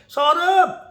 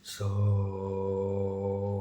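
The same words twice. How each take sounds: First: The name is said in a high pitch. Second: The name is said in a low pitch.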